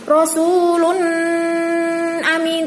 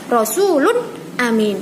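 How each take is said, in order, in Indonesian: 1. Huruf n dipanjangkan dengan dengung sengau. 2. Huruf n diucapkan tegas, tanpa dengung sengau. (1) "tidak boleh dengung, tidak boleh berengeng. Seperti ini. Rasulun amin, tidak boleh" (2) "Harus jelas"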